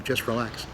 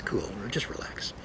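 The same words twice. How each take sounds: First: Said in the usual way. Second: Breathy hushed whisper; soft whispered reassurance. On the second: Shown as a demonstration. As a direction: whisper it like a calming secret.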